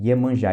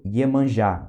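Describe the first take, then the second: First: Iemanjá repeated, ye glide up front; Ye sound repeated. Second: Iemanjá starting on a clear ye glide; Ye sound. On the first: Teacher repeats Iemanjá to show Ye. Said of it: "Esse primeiro Ye aqui". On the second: Teacher shows the Ye sound with Iemanjá. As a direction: stress the opening ye of Iemanjá. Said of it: "tem som de Ye". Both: Shown as a demonstration.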